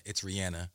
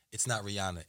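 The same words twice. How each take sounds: First: Rihanna with "an" in the middle, ree-ANN-uh; low, matter-of-fact Rihanna with a short "a"; corrected pronunciation of Rihanna. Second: Rihanna with "ah" in the middle, ree-AH-nuh; low, matter-of-fact Rihanna with an open "ah"; common mispronunciation of Rihanna. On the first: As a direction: say Rihanna with the vowel of "and". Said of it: "someone else gave me this information". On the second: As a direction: say Rihanna the American way, with an "ah". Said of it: "that we mispronounce her name". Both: Shown as a demonstration.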